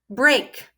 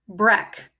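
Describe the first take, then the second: First: The vowel is a long A sound. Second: The vowel is a short E sound. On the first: The speaker calls it right. "Maybe I'll try the long sound of A" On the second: The speaker calls it wrong. "I'll try the short sound of E next"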